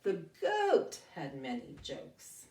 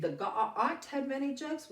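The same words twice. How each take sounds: First: Slow, goat and jokes with a long O. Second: The ga-, ah, ah, t with a short ah vowel; short O mistake. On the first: Teacher fixing the reading with long O. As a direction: read it back slowly with long O. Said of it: "flip the vowel to the long O". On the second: Teacher showing the silly short O reading. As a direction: read goat wrongly as ga-ah-t. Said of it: "you know that sounds silly". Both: Shown as a demonstration.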